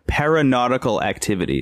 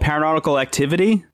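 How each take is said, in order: First: The name is said at a slower pace. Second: The name is said at a quicker pace.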